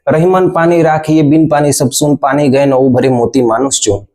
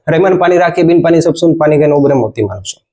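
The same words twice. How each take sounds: First: It is recited slowly in a melodic rhythm. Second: It is recited very fast without rhythm.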